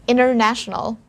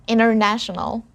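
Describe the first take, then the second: Both takes have the same delivery.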